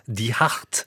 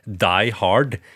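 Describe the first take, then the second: First: It is pronounced the German way. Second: It is pronounced the English way. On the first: The speaker calls it wrong. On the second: The speaker calls it right.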